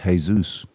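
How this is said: The name is said with Spanish pronunciation. "to Spanish people it's Jesus"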